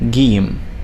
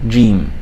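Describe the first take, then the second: First: It begins with a hard G sound. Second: It begins with a J sound. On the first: This is how it is said mainly in Egypt. "mainly in Egypt, you'll find it called Gim, Gim, like Gulf" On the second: "for modern standard Arabic, we will use it as Jim"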